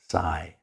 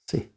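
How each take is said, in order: First: The vowel is long, like 'eye'. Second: The vowel is short, like 'ih'. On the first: The speaker calls it wrong. "You don't say sigh" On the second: The speaker calls it right. "the Y is short"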